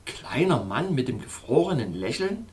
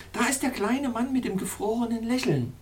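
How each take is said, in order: First: Said in the usual way. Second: Much higher, thrilled cry of the same phrase; excited exclamation. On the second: Acted. Princess reveals the frozen little man, high excited cry. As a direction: cry it out in delight, pitched high. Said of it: "und rief aus".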